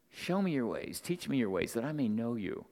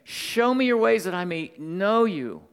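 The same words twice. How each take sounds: First: Moses' subdued plea. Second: Loud, high appeal to God; Moses' fervent plea. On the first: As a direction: bring the appeal down to a quiet prayer. Repeats Moses' plea in softer voice. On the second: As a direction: cry it out as an acted prayer, raised and forceful. Acts Moses' plea, then repeats softly. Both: Acted.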